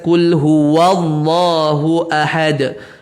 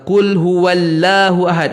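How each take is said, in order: First: The 'l' in Allah is heavy and full. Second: The 'l' in Allah is light and thin. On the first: The speaker calls it right. "Ni pun baris atas" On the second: The speaker calls it wrong. "tu contoh yang tak betul"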